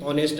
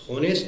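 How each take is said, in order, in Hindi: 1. शब्द की शुरुआत स्वर ध्वनि से होती है। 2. शब्द की शुरुआत H ध्वनि से होती है। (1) "उच्चारण वोवेल का आ रहा है" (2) "उच्चारण होनेस्ट ना करके"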